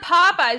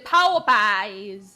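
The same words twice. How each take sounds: First: It is said plainly, with no extra vowels. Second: It is said in a Southern accent with stretched vowels. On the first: "instead of" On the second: "You just add extra vowels to everything"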